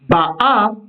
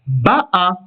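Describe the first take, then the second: First: The stress is on the last syllable. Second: The stress is on the first syllable. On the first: She comes, in the present. "va s'accentuer sur la dernière syllabe" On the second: She came, in the past. "si l'on place l'accent sur l'avant-dernière syllabe"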